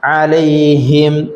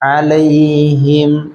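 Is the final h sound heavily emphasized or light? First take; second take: emphasized; light. First: The h sound is pushed out with heavy emphasis. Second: The h sound is said lightly without extra emphasis. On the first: The speaker calls it wrong. "ഹാഇന് ശ്രദ്ധ ഇട്ടിട്ട് ... അങ്ങനെ ഓതണ്ട" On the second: The speaker calls it right. "അങ്ങനത്തെ ഓതിയാൽ മതി"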